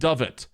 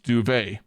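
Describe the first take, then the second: First: The word is pronounced like 'dovet'. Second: The word is pronounced like 'duvet'. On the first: The speaker calls it wrong. "will instead pronounce it dovet" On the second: The speaker calls it right. "I know that it's pronounced duvet"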